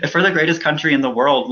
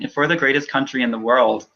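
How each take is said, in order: First: Pushing through. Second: The words break as tears rise; voice catching. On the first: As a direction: push the line out firmly. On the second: Candidate to host, voice catching on the words. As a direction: start the line and lose it to emotion. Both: Real, not acted.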